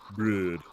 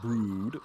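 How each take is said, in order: First: The vowel is an umlaut sound without lip rounding. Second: The vowel is a plain oo with rounded lips. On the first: The speaker calls it right. "Do the same thing, but don't push your lips out" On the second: The speaker calls it wrong. "not brood"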